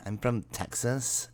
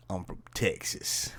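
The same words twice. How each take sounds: First: Put-on slow Valley Girl with a rising tune. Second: Put-on a flat, whispery try at Valley Girl; a Valley Girl line that doesn't land; butchered Valley Girl. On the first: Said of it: "Is that better?". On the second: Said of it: "Kinda butchered that". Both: Shown as a demonstration.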